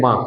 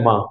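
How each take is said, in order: First: Said in the usual way. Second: माँ with the vowel sent through the nose; nasal aa in माँ, no plain oral vowel; nasalised vowel. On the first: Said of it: "हम लोग आजकल normally बोलते हैं". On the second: Shown as a demonstration. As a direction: say माँ with a clearly nasal long aa. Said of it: "वास्तव में उसका सही उच्चारण होता है".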